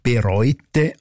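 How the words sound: The first syllable is short and unstressed. This is the standard written-language form. "der schriftsprachliche Hofname"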